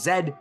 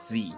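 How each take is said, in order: First: The letter is said the Canadian way. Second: The letter is said a non-Canadian way. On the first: The speaker calls it right. "here in Canada we pronounce it as Z" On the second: The speaker calls it wrong. "not Z"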